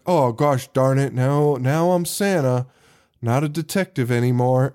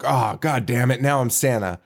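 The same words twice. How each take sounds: First: Mopey sad sack. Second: Understated imitation of an angry line, no real yell; mock exasperated outburst. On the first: Retold or imitated. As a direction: imitate an actor delivering it with no fight at all. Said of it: "the biggest sad sack in movie history". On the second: Podcaster showing how Santa's line should sound, mildly exasperated. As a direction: act mildly fed up, with some emotion. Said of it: "like, yelled at, or, like, some, some range of emotion".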